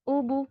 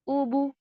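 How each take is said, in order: No difference in how they are said.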